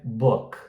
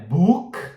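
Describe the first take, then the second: First: The vowel is lax and short. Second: The vowel is tense and long. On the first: The speaker calls it right. "E ele é bem mais sutil" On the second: The speaker calls it wrong. "Não é book"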